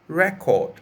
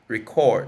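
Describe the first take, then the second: First: The stress is on the first syllable. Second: The stress is on the second syllable. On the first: It is used as a noun. "I'll give you the noun first" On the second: It is used as a verb. "and the verb form"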